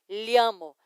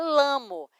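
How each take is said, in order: First: The word begins with a palatal LL sound. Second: The word begins with a plain L sound. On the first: The speaker calls it right. "os dois L's fazem o som de H" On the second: The speaker calls it wrong. "não é lamo"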